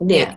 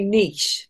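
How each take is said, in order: First: The word is pronounced the English way. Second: The word is pronounced the French way. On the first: The speaker calls it wrong. "not knit" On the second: The speaker calls it right. "it's a French word, so it would be niche"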